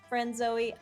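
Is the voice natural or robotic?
robotic. It is said in a flat robotic voice. The speaker calls it right.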